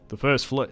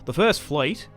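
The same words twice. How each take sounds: First: It is said in the speaker's usual accent. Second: It is said in an attempted Australian accent. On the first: The speaker calls it wrong. "No, it wasn't. I guess this is my accent" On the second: The speaker calls it right. "I think I got it now"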